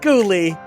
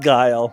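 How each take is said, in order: First: The name has two syllables, ending in an ee sound. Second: The name has one syllable, rhyming with style. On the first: The speaker calls it wrong. "it's not pronounced Ghoulie" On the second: The speaker calls it right. "it's pronounced Guile"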